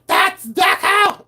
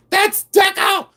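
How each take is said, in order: First: Much higher, slow drawn-out shout; slow mock shout. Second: Shrill, much higher mock yell of "That's Deco!"; mock scream. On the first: Mocking collectors who insist it's Deco, a slow high shout. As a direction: stretch it out, yelling way up high. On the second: Imitating screaming resellers, a much higher mock yell. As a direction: squeal it way up high like a fussy collector. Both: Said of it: "They start screaming".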